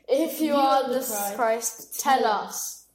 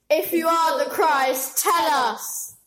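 First: It sounds mild, not angry enough. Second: It sounds clearly angry.

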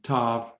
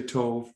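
First: The vowel is an open 'ah' sound. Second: The vowel is a rounded 'oh' sound. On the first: Some speakers pronounce it this way. "So there's some accents on the Hebrew word letter holam, that is Tav" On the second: Most speakers pronounce it this way. "but we say Tov"

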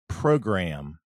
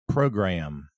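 Both takes have the same delivery.

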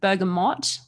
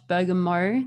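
First: The final T sound is clearly pronounced. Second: The final T sound is left silent. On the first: The speaker calls it right. "it is in fact pronounced bergamot" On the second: The speaker calls it wrong. "not bergamo"

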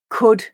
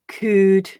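First: The vowel is short, as in full. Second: The vowel is long, as in fool.

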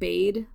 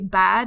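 First: The vowel is long, as in 'made'. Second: The vowel is short, as in 'sad'. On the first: This is the expected way to say it. "instead of bade" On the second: This is how the characters in the film say it. "they say bad instead of bade"

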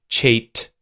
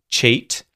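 No difference in how they are said.

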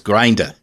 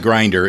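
First: It is said in a Boston accent. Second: It is said in a standard American accent. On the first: The speaker calls it right. "It's grinder" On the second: The speaker calls it wrong. "Only it's not grinder"

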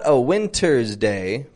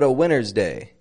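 First: The T in winter is clearly pronounced. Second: The T in winter is dropped. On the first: The speaker calls it wrong. "it's not a winter's day" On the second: The speaker calls it right. "The T kind of vanishes in the word winter"

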